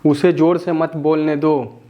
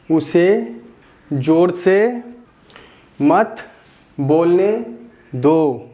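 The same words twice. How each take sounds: First: Quick, the whole sentence in one breath; teacher recapping the full sentence briskly; run together. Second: Teacher dictating each word separately. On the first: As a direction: say it all at once fluently. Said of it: "teacher says the whole sentence in one go". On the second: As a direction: build the sentence up one word at a time. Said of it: "teacher builds the sentence word by word". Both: Shown as a demonstration.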